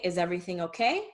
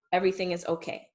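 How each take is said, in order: First: "Is everything okay" asked, rising on "okay"; question intonation. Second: "everything is okay" stated, falling on "okay"; statement intonation. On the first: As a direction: lift the end of "okay" like a question. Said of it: "That's a question". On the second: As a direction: let "okay" drop as a plain fact. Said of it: "as a statement". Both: Shown as a demonstration.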